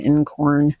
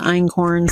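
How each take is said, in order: First: The first syllable sounds like 'in'. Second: The first syllable sounds like 'eye'. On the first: "some people pronounce it incorn" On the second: "some people pronounce it einkorn"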